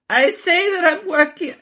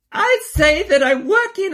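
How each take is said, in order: First: Quick high quote before the real voice; first try at the Melania line; high mock quote. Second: High, put-on accent; hammed-up foreign first lady voice; Melania voice. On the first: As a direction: start the quote high, unprepared. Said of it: "wait, let me do my Melania voice". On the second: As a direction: do a mock Melania Trump. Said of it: "let me do my Melania voice".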